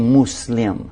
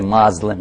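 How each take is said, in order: First: It begins with 'moo', then 'slim'. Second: It begins with 'moz', like mazlum. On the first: The name the believers use for themselves. The speaker calls it right. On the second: A name critics used, suggesting wrongdoer. The speaker calls it wrong.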